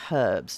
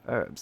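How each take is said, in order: First: The word starts with a pronounced h sound. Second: The word starts with a silent h. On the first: This is the British way of saying it. "He's British. So he talks about herbs" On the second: This is the non-British way of saying it. "not herbs"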